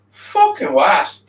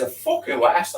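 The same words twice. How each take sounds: First: Slow, loud snarl on the curse. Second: Said in the usual way. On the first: A narrator's reading. Narrator snarling at the gun, slow furious curse. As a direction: bite out the curse, dragging it. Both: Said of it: "I snarled at the gun".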